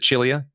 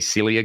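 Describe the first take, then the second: First: The name begins with a ch sound. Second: The name begins with an s sound. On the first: This is the owner's own Maltese pronunciation. "He pronounces it Chilia because he's Maltese" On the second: This is how many other people say it. "a lot of people say Cilia guitars"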